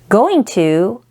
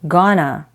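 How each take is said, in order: First: It is said in full as two words. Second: It is reduced to one blended word.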